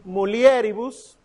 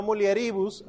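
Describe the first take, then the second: First: MULIERIBUS said mu-li-E-ri-bus; stress on E. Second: MULIERIBUS said mu-lie-RI-bus; stress on RI. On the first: Teacher modelling the correct stress for students, mulieribus stressed on E. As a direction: hit and lengthen the e of mulieribus. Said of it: "aquí sería en la E". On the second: Teacher showing students the wrong stress, mulieribus stressed on RI. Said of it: "no mulieribus". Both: Shown as a demonstration.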